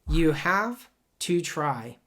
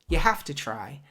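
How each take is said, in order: First: Have to is said fully with a V sound. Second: Have to is reduced with an F sound. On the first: The speaker calls it wrong. "We don't say that" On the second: The speaker calls it right. "The V becomes an F, and the V and the T, they connect to each other"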